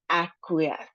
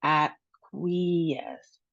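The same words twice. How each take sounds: First: Said in the usual way. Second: Acquiesce slowly, "ak-wee-ESS", E held long. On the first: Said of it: "let's go ahead and try it". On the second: Shown as a demonstration. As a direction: split acquiesce up and stretch the "wee". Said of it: "we have a long E sound".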